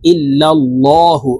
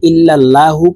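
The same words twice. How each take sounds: First: The L sound is heavy and thick. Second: The L sound is light and thin. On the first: The speaker calls it right. "ল অর্থাৎ মোটা করে পড়ব" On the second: The speaker calls it wrong. "আরেকটি ভুল করে থাকি"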